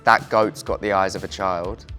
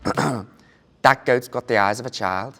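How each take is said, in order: First: Spoken in the speaker's natural regional accent. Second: Spoken in an imitated Liverpool Scouse accent. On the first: "it's in my own accent" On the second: "a launch phrase that I use to try and do the Scouse accent"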